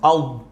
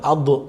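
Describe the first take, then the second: First: The final d is held without any bounce. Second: The final d bounces into a short vowel. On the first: The speaker calls it right. "kalau mati sukun ad" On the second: The speaker calls it wrong. "bukan adu, nggak boleh"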